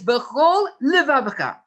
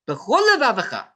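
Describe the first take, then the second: First: The two words are separated by a short break. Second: The two words run together without a break. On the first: The speaker calls it right. "It is bechol levavcha" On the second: The speaker calls it wrong. "Not bechol levavcha. There is no such a word"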